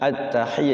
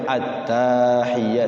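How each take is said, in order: First: The 'ta' syllable is short. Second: The 'ta' syllable is drawn out long. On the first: The speaker calls it right. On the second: The speaker calls it wrong.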